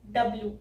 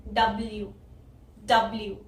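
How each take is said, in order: First: "डब्ल्यू" said as dub-loo with no y glide; wrong W. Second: "डब्ल्यू" with a y glide before the u; correct W. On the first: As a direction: drop the y in "डब्ल्यू". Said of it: "तो ये हो जाएगा". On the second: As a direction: say "डब्ल्यू" as dub-l-yoo. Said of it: "इसको बोलना है". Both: Shown as a demonstration.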